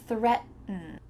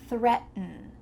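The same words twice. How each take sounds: Both takes have the same delivery.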